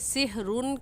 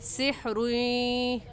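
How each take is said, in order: First: The final N sound is clearly pronounced. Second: The final N merges into a Y sound. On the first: The speaker calls it wrong. "सिहरुन कहना गलत है" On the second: The speaker calls it right. "सही है सिहरुई"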